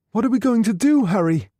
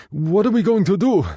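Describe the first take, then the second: First: Much higher, pleading; anxious Helen. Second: Higher, urgent and breathless; anxious Guido. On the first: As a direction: beg Harry for a plan. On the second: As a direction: press for an answer, worried. Guido panicked. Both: Acted.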